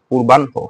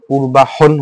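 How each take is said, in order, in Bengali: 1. n ধ্বনিটি h ধ্বনির আগে আসে। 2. h ধ্বনিটি n ধ্বনির আগে আসে। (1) "আগেটা দন্ত্যন্য হয়েছে, তারপর কি হ হয়েছে" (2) "পূর্বাহন হওয়ার কথা ছিল না?"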